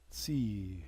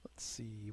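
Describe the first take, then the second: First: Said in the usual way. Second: Soft, breathy Let's see; whisper. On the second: Real, not acted. Gamer looking over his units, whispering.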